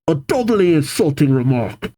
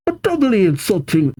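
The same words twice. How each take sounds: First: Said in the usual way. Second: Put-on grunt's line slipping into a Scottish accent; a Scottish lilt on a doubly insulting, pitched up. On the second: Female grunt retorting to Casey, mistakenly in a Scottish accent. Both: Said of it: "nope, not Scottish".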